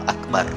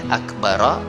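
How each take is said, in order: First: The word ends on the r with no vowel. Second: The final r is followed by a short a vowel. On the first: "sunnahnya sukun, dimatikan huruf ra-nya" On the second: "boleh akbara atau akbar"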